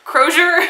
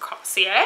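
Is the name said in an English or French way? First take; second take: English; French. First: The name is pronounced in an English way. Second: The name is pronounced in a French way. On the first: The speaker calls it right. "Crozier makes so much more sense" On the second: The speaker calls it wrong. "I was trying to make this person French"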